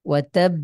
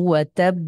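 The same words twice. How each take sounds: The two takes are said the same way.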